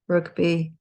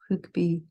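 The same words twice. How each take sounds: First: It is pronounced with English sounds. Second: It is pronounced with French sounds. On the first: "say the English" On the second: "then the French"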